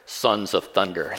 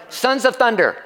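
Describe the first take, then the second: First: "Sons of Thunder" dropped low and drawn out slowly; low, slow, rumbling. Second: Said in the usual way. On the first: Shown as a demonstration. Preacher to congregation, "Sons of Thunder" low and slow.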